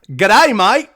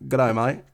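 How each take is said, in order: First: Loud, high, hammed-up Aussie greeting; exaggerated Aussie, pitched up and punchy; over-the-top Australian accent. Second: Softer, understated Aussie greeting; casual, muted Aussie imitation; low-key Australian accent. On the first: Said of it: "You gotta go over the top". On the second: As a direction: toss it off in a mild Australian accent. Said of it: "So you would've went like".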